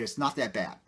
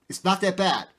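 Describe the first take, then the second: First: Said in the usual way. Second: Loud, high retold outburst; angry insistence in a loud, high voice; blew up. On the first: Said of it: "I just blew up". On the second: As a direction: snap it back at him as you blow up. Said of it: "I just, I just blew up".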